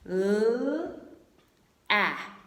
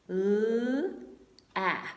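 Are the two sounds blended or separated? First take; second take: separated; separated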